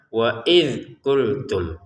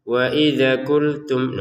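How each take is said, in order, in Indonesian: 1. Bunyi dh berhenti dengan bersih tanpa gema. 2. Bunyi dh berakhir dengan gema yang memantul. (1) "Cukup tidak usah wa idz qultum" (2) "jangan dibaca wa idza wa idza qultum"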